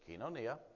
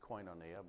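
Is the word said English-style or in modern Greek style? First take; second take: modern Greek; English-style. First: It uses the modern Greek pronunciation. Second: It uses the common English-style pronunciation. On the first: "the modern Greek pronunciation is kinonia" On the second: "Most people pronounce it koinonia"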